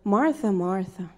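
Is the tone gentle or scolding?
scolding. It sounds harsh and scolding.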